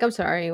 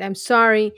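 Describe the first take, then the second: First: It sounds dismissive and offhand. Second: It sounds sincere and heartfelt.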